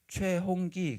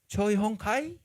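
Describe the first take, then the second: First: The last syllable is said as gi. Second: The last syllable is said as kai. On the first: The speaker calls it right. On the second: The speaker calls it wrong.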